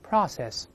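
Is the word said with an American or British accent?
American. It is said with an American accent. "美式发音是"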